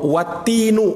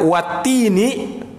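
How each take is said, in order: First: The word ends with an u vowel. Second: The word ends with an i vowel. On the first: It simply means and the fig. "kalau wattinu, waw di situ cuman atop saja" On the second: It is an oath by the fig. "kalau di kasrah dia wattini"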